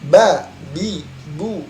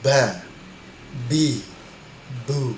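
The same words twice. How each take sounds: First: The b is said without a puff of breath. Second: The b is said with a puff of breath. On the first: The speaker calls it right. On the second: The speaker calls it wrong. "ini ada hempasan, padahal tidak menghempas"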